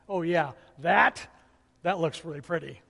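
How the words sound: It is said flatly with a dismissive, sarcastic edge. The speaker does not really like the craft. The speaker calls it wrong. "Can you imagine what my tone had, if it had been something like"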